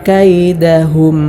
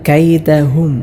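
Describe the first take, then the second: No difference in how they are said.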